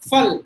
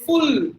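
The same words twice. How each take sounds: First: The vowel is a short, neutral 'a' sound. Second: The vowel is a rounded 'oo' sound. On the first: The speaker calls it right. "It should be a as in amma" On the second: The speaker calls it wrong. "we say full, ooh, ooh"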